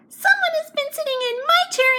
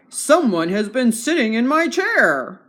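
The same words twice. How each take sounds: First: It is spoken in a small, tiny voice. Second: It is spoken in a big, deep voice. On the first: "cried in his little wee voice" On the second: "said in his great big voice"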